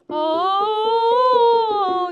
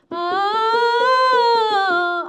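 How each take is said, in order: First: The sound resonates at the back of the mouth. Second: The sound resonates at the front of the mouth. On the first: "이렇게 뒤로 쓸 수도 있고" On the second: "앞으로 쓸 수도 있고"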